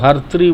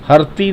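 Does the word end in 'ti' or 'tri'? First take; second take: tri; ti. First: The word ends in a 'tri' sound. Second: The word ends in a plain 'ti' sound. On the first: The speaker calls it right. "इसको हर्त्री बोलेंगे" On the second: The speaker calls it wrong. "हरती नहीं बोलेंगे"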